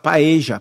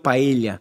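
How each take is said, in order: First: The double L sounds like a 'j' sound. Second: The double L sounds like an 'i' glide. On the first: This is how Argentinians and Uruguayans say it. "eles usam dois L's com esse som de J" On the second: This is how Spaniards say it. "ele tem o som de L H ou de I"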